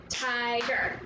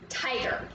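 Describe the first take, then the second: First: "Tiger" split into two beats; syllable by syllable. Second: Said in the usual way. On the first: Shown as a demonstration. Teacher tries the word with pupils, syllable by syllable. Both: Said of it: "Let's try it".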